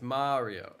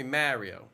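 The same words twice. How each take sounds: First: "Mario" with the open AH of "car"; correct Mario. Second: "Mario" with the flat A of "marry"; mispronounced Mario. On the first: Streamer correcting those people, "Mario" said as MAH-ree-oh. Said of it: "Why's it gotta be Mario?". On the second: Streamer mocking those people's version, "Mario" said as MARE-ee-oh. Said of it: "those people who say Mario". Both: Shown as a demonstration.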